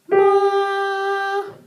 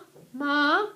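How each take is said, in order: First: The pitch stays level throughout. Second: The pitch starts low and is held longer. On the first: "Don't move the pitch at all. You get the first intonation" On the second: "lean on the first pitch, which is the lower pitch, a little bit longer"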